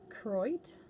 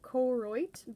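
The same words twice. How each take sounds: First: The first O is left out. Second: The first O is clearly pronounced. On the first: The speaker calls it right. "you're not supposed to pronounce the first O" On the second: The speaker calls it wrong. "It's spelled like Koroit"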